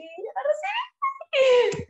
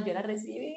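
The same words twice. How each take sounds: First: Much higher, slow, crying with joy; voice breaking into tears. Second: Said in the usual way. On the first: Real, not acted. Recalling receiving her daughter at birth, crying with emotion. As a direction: let the tears break through. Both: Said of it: "¡Qué emoción!".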